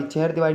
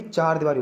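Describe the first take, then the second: First: चहर दीवारी opening "cher"; wrong pronunciation. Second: चार दीवारी opening "chaar"; correct pronunciation. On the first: Teacher shows students a common error, mispronounced. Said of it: "चहर दीवारी नहीं भाई". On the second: Teacher corrects it for students, careful pronunciation. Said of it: "चार दीवारी होती है". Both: Shown as a demonstration.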